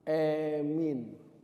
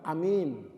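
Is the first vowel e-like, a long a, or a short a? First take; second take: e-like; short a. First: The first vowel is fronted toward e. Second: The first vowel is a short a sound.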